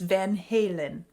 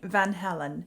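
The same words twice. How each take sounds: First: The name is pronounced the English way. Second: The name is pronounced the Dutch way. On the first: The speaker calls it right. "said it's Van Halen" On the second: The speaker calls it wrong. "I was saying Van Halen ... that's a Dutch name"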